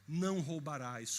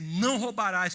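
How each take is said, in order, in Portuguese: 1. Dito como uma promessa calma e segura. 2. Dito como uma ordem firme e severa. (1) "como uma profecia de que ele nunca mais faria aquilo" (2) "como um mandamento, como um imperativo"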